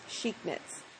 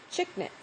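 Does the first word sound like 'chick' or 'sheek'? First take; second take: sheek; chick. First: The first word sounds like sheek. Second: The first word sounds like chick. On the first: The speaker calls it right. "I'm betting that it's Chic Knits" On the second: The speaker calls it wrong. "I call it Chick Knits"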